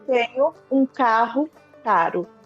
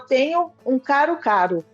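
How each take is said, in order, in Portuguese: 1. O primeiro som do R é forte. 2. Os dois sons do R são fracos e iguais.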